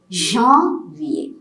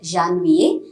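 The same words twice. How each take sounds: First: The first vowel is said with nasal sound. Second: The first vowel is said without nasal sound. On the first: The speaker calls it right. "You get a nasal pronunciation here" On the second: The speaker calls it wrong. "It is not a janvier"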